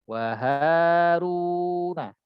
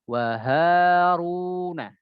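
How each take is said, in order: No difference in how they are said.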